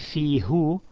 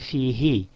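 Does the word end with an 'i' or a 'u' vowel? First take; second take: u; i. First: The final vowel is a rounded 'u' sound. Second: The final vowel is a front 'i' sound. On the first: The speaker calls it wrong. "instead of saying fihu" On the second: The speaker calls it right. "it's just easy in pronunciation"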